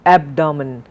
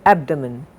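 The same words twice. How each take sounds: First: "abdomen" with a full vowel in the middle, AB-dah-mun; wrong pronunciation. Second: "abdomen" with a weak middle vowel, AB-duh-mun; correct pronunciation. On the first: Teacher showing what we don't say, "abdomen" as AB-dah-mun. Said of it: "We don't say". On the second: Teacher giving the right form, "abdomen" as AB-duh-mun. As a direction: swallow the "do" of "abdomen" to a quick "duh". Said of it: "we say abdomen". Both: Shown as a demonstration.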